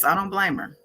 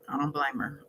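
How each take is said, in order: First: Said in the usual way. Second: Much softer, trailing echo of "I don't blame her"; soft repeat. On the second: Real, not acted. Host sympathizes with the nervous friend, softly repeating. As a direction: drop it to a murmur the second time.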